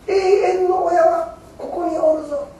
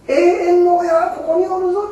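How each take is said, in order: First: Slow, higher, solemn voice of Amida; Amida's slow declaration. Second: Higher, fuller voice of Amida; Amida's firm declaration. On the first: Preacher gives Amida's promise, slow and raised. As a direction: draw the promise out gently. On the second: Preacher repeats Amida's promise, higher and fuller. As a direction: proclaim the promise outright. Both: Acted. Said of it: "阿弥陀様が".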